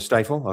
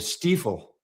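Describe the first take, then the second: First: The first vowel is a long I sound. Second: The first vowel is an ee sound. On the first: "Long I" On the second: "you're saying it's not a"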